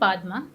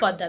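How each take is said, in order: First: The name is said with an m sound. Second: The name is said with a double d sound. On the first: This is how the name is spelled. "It's written पादमा" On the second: This is how the name is actually pronounced. "That's how it's pronounced"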